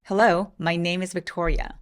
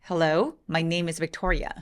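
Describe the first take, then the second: No difference in how they are said.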